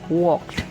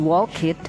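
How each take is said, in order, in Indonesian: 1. Akhiran itu hanya bunyi konsonan di akhir. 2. Akhiran itu diucapkan sebagai silabel tambahan. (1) "yang dibaca hanya d-nya saja" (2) "tidak menjadi walked"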